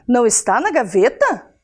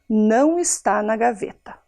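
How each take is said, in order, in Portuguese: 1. É dito como pergunta, subindo no final. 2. É dito como afirmação, descendo no final. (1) "Que alguém contou para ela que o relógio sumiu"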